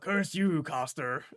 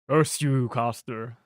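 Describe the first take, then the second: First: It is said in a put-on old man voice. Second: It is said in the speaker's ordinary voice. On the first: The speaker calls it right. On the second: The speaker calls it wrong.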